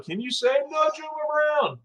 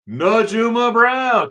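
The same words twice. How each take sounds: First: Put-on "Najuma Brown" in a high, slow singsong like a children's host; kids' show singsong. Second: "Najuma Brown" sung out slowly and high, each syllable stretched; drawn-out name. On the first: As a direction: ask "can you say Najuma Brown" teaching-style. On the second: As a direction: savour "Najuma Brown" slowly, rising high then falling. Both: Shown as a demonstration.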